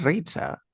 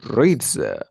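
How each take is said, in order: First: "reads a" said as "reet-sa"; higher "reads a" with a voiceless ts; wrong S linking. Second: "reads a" said as "reed-za"; firm "reads a" with humming dz into the vowel; correct Z linking. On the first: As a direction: hiss the s of "reads a" instead of buzzing. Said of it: "No, no es reads a". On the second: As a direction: voice the s of "reads a" as a buzzed z. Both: Shown as a demonstration.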